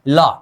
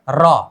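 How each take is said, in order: First: The consonant is said like an l. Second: The consonant is said like an r. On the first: This is how it sounds when placed below as a final consonant. "Duplicate उच्चारण के अंदर हम क्या करते थे, लॉ।" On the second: This is the letter's original pronunciation. "रॉ हमारे O R I जी I N A L original pronunciation था।"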